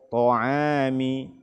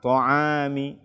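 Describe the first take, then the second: First: The first t sound is heavy and full. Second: The first t sound is thin and breathy. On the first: The speaker calls it right. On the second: The speaker calls it wrong.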